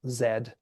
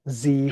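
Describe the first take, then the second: First: The letter is said the Canadian way, zed. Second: The letter is said the American way, zee.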